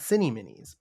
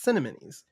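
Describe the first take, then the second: First: The word sounds like 'cinny' followed by 'minis'. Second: The word sounds like 'cinnamon' followed by 'ees'. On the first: The speaker calls it wrong. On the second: The speaker calls it right. "it also sounds like cinnamon when you say it"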